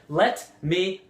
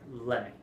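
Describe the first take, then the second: First: Both words are said fully and separately. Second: The words blend together into a reduced form. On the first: The speaker calls it wrong. "We usually don't say" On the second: The speaker calls it right. "We say"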